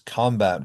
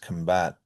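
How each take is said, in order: First: The stress is on the first syllable. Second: The stress is on the second syllable. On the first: It is used as a noun. "nouns that have primary stress on the first syllable" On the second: It is used as a verb. "verbs have it on the second syllable"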